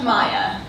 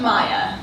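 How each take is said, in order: First: The middle consonant sounds like English Y. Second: The same.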